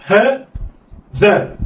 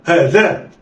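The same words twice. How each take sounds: First: "ها" raised, pause, then "ذا"; letters sounded apart. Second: "ها ذا" joined in one quick go; snatch "ها ذا" with no pause; snatched together. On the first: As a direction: say "ها" and "ذا" as separate syllables. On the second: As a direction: blend "ها ذا" like one word. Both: Shown as a demonstration. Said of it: "اخطف".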